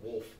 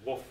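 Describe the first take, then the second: First: The word is said with the L sound. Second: The word is said without the L sound. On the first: The speaker calls it right. "instead of wolf" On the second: The speaker calls it wrong. "I always miss the L in it. I say woof, like like like a dog barking"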